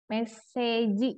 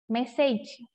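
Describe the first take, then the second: First: It is said the Japanese way, ending in 'ji'. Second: It is said as English, ending in a consonant.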